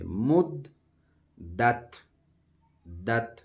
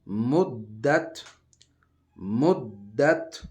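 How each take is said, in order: First: Teacher breaking مدت apart; broken recitation. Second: مدت very slow and loud, dal doubled; teacher chanting the joined مدت; joined recitation. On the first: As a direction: split مد دت into two clipped syllables. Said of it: "اس کو پڑھیں گے". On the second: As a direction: stretch مدت into one long word. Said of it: "جوڑ کر کے پڑھیں گے". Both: Shown as a demonstration.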